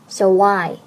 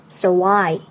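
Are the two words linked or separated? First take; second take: linked; linked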